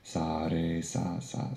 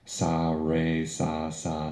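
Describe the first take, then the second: First: The R is rolled like a soft D. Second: The R is a plain English R. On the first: "I'm rolling the R as the tongue rolls off the roof of the mouth" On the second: "If I were saying this with an English accent"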